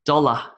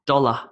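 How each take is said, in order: Both takes have the same delivery.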